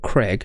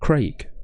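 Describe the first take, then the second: First: The vowel sounds like 'eh', as in 'Creg'. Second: The vowel sounds like 'ay', as in 'Cray'. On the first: The speaker calls it wrong. "not Craig. There's no E in the whole name" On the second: The speaker calls it right. "like Cray with a G on the end"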